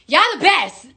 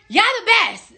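First: Said in the usual way. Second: "y'all the best" lifted higher with weight on "best"; emphatic praise. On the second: Real, not acted. [name] thanking fans, stressing "best" up high. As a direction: lean hard on "best" in "y'all the best". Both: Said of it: "I love y'all motherfuckers".

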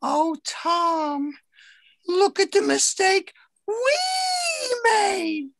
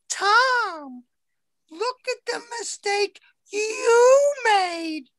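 First: High sing-song boss voice stressing we; mock boss sharing blame. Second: High, slow whine of a nagging boss; whiny scolding boss. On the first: Boss turning her own mistake on Tom, stressing we. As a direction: lean on we to spread the blame. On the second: Retold or imitated. Boss whining at Tom over his mistake, high and slow. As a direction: drag out the blame like a shrill complainer.

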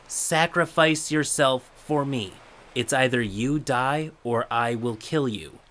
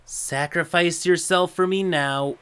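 First: Slow creepy calm threat. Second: Creepy calm threat. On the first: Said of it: "with that calm demeanor". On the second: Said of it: "very calm in a creepy, threatening manner". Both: Retold or imitated.

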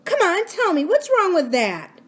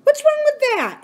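First: Insistent. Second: Put-on sharp, high, indignant girl's demand. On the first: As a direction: press him, drawing it out. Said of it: "He didn't answer her". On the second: Girl demanding of the laughing boy, indignant. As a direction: snap the question up high. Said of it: "she demanded". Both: A narrator's reading.

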